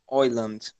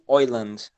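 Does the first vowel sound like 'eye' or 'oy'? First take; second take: oy; oy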